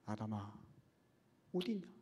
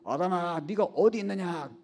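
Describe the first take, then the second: First: It is said in a tender, pleading voice. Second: It is said in an angry voice.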